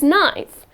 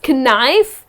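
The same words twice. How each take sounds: First: The word begins with an N sound. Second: The word begins with a K sound. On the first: The speaker calls it right. "The correct pronunciation is knife" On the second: The speaker calls it wrong. "As a kid, I used to always pronounce it as knife"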